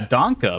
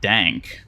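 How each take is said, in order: First: It ends with a short vowel after the k. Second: It ends on the k with no vowel. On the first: The speaker calls it right. "Danke means thank you in German" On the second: The speaker calls it wrong. "some people might pronounce it dank, which is just like wrong"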